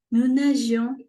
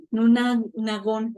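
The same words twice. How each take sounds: First: "nous nagions" with a soft zh sound, a bit louder; soft G kept. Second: "nagons" with a hard G like "gon"; wrong hard G. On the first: Teacher models the correct form, the G soft like in nage. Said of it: "es para que toda esta pronunciación siga el mismo patrón". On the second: Teacher shows students how the wrong hard G would sound. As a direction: break off "nous na-", then land on a hard-G "nagons". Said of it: "no sea como que". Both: Shown as a demonstration.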